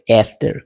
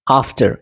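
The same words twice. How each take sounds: First: आफ्टर starting on the vowel of cat; American "ae" sound. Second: आफ्टर starting on a long "ah"; British "ah" sound. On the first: Teacher contrasts the vowels, American pronunciation. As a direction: say आफ्टर as "AEF-ter". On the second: Teacher contrasts the vowels, British pronunciation. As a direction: say आफ्टर as "AHF-ter". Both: Shown as a demonstration. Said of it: "आ और ए याद रखना".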